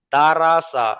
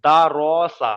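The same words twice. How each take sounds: First: "রা" with an open aa, not rounded; light, thin raa in the middle of দা রা সা. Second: "র" as a heavy raw, lips rounded; full, rounded "র". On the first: Quran teacher showing the mistake, "রা" thin and open. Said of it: "দা রা সা বললে ভুল হবে". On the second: Quran teacher showing the correct reading, "র" full and rounded. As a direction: round the mouth on "র" in দা র সা. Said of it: "র, মুখটা গোল হয়ে আছে". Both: Shown as a demonstration.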